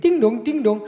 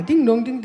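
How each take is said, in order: First: Ding-dong doorbell imitation. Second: Light sung bell tones, falling; ding-dong doorbell imitation. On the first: Tells courier how to ring, sung ding dong. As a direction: sing the two bell tones, falling. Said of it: "aber Sie klingeln doppelt". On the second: Repeating the double ring to courier, sung bell. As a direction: hum out the doorbell again for him.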